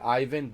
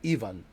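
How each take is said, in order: First: The name is said the American way. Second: The name is said the Slavic way.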